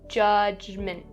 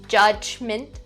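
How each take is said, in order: First: The middle consonant is a clear voiced J. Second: The middle consonant is a strong, overdone Ch. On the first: "technically, you're supposed to pronounce the word as judgment. There's two J sounds" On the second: "don't over enunciate the sound. So don't say judgment, not correct"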